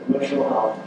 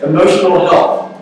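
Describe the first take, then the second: First: Said in the usual way. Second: "emotional health" announced louder and higher; emphatic heading. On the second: Shown as a demonstration. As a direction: call out "emotional health" like a topic title, stressing "emotional". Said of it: "All right, emotional health".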